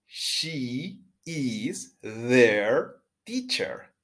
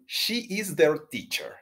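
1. La oración se pronuncia a un ritmo más lento. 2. La oración se pronuncia a un ritmo más rápido.

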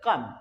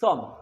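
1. শব্দটি k ধ্বনি দিয়ে শুরু। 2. শব্দটি s ধ্বনি দিয়ে শুরু। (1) "এটা উচ্চারণ হচ্ছে কাম" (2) "নট সিওএমই সম"

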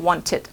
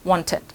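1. พยางค์สุดท้ายออกเสียงสั้นและเบา 2. พยางค์สุดท้ายออกเสียงสั้นและเบา

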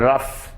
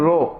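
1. ഈ വാക്ക് 'uh' സ്വരത്തോടെയാണ് പറയുന്നത്. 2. ഈ വാക്ക് 'oh' സ്വരത്തോടെയാണ് പറയുന്നത്. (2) "ROUGH നോട്ട് റോ"

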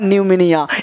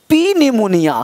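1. इस शब्द की शुरुआत n ध्वनि से होती है, p साइलेंट रहता है। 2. इस शब्द की शुरुआत एक साफ़ p ध्वनि से होती है। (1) "इसे पढ़ना न्यूमोनिया, यानी पी क्या हो गया, साइलेंट हो गया" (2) "अब पी निमोनिया नहीं पढ़ना है"

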